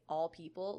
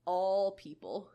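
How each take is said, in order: First: Said in the usual way. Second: "All people" with a long, stretched-out "All"; elongated A sound. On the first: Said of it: "when you will say". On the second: Shown as a demonstration. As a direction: drag the vowel of "All" in "All people", slow and louder. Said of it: "I have an elongated A sound".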